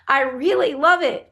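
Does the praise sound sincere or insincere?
sincere. The praise sounds warm and sincere.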